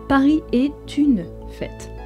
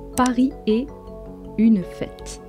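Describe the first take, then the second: First: A t sound links est to une. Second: Est and une are said without a linking sound.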